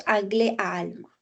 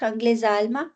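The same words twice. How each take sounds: First: "anglais à" with no z between; unlinked words. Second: "anglais à" said as "anglai-zà"; linked ending. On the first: Teacher prefers no enchaînement here, unlinked. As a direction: leave the s of "anglais" silent before "à". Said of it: "Je ferai pas l'enchaînement". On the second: Teacher offers a possible reading, linked. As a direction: quickly link "anglais" to "à" with a z. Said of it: "Moi, je dirais plus". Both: Shown as a demonstration.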